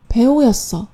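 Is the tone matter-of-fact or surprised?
matter-of-fact. It is said in a plain, flat statement tone. He used to be an actor but no longer is. "单纯的表示了一个过去时"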